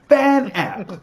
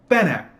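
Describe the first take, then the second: First: The name is drawn out slowly. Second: The name is said short and quick. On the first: "I'm pronouncing it long" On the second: "but it's Fan Apt"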